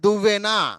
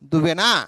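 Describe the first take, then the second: First: The middle v sound is held long, doubled. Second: The middle v sound is short, single. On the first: The speaker calls it right. "వా ఒత్తు రావాలి" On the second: The speaker calls it wrong. "ఒకవేళ మీరు వా ఒత్తు రాయకపోతే అది దువ్వెనా"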